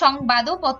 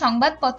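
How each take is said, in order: First: An 'o' vowel is sounded after the 'd'. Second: The 'd' is closed with no vowel after it. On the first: The speaker calls it wrong. "আমরা সংবাদও পত্র বলছি না" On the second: The speaker calls it right. "সংবাদপত্রই বলছি"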